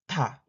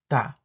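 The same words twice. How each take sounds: First: The first consonant has a strong puff of air. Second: The first consonant is plain and lax. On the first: "Alveolar stop affricate aspirated" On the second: "Alveolar stop affricate plain"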